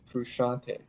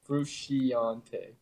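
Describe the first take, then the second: First: No extra 'ee' vowel is sounded after 'sc'. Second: An extra 'ee' vowel is sounded after 'sc'. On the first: The speaker calls it right. "It's just [name]" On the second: The speaker calls it wrong. "You're pronouncing the I, though, in the name"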